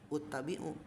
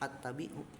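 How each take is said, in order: First: The word begins with an u vowel. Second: The word begins with an a vowel.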